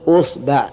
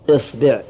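First: The word begins with the vowel u. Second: The word begins with the vowel i. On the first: "ضم الهمزة" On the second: "كسر الهمزة"

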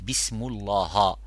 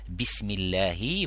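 First: The word is said with its short vowels changed. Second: The word is said with its standard short vowels. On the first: The speaker calls it wrong. "vous dites bismullaha. Ça c'est le change de harakat al-i'rab" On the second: The speaker calls it right. "au lieu de dire bismillahi"

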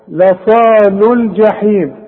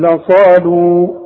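First: The verb's final vowel is dropped before the next word. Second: The verb ends with a long u vowel. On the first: The reciter continues into the next word. "تتلغي عند الوصل" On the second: The reciter stops on this word. "اذا وقفت اقول لصالوا"

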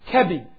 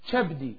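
First: The word begins with a k sound. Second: The word begins with a ch sound. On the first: This is the form many consider standard Arabic. The speaker calls it right. "People think this is the Arabic" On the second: The speaker calls it wrong.

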